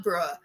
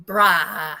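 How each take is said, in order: First: "bruh" with a rounded oh-like vowel. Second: "Bruh" with an open, drawn-out ah. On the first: Showing the wrong slang version, "bruh" rounded like bro. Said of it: "not bruh". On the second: Correcting herself on slang, "Bruh" with open ah. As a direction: say "Bruh" as brah. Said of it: "that's how they say it". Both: Shown as a demonstration.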